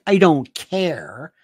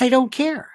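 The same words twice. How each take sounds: First: CARE drawn out with a rising end; stress on CARE. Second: Higher, quicker, without stretching CARE; matter-of-fact. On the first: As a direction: stretch CARE and let it lift, as if dismissive. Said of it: "it's not like I don't care". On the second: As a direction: say it lightly, with CARE kept short. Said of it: "It's not, it's not like". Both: Shown as a demonstration.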